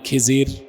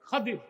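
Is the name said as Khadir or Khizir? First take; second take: Khizir; Khadir. First: It has an i vowel and a z sound. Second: It has an a vowel and a d sound. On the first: This is the form commonly used. The speaker calls it wrong. "আপনারা যাকে বলেন খিজির" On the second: This is the proper form of the name. The speaker calls it right. "বিফাতহিল খা ওয়া কাসরিদ দাদ"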